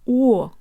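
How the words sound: The vowel glides open toward ah. "Russian does the opposite. It opens"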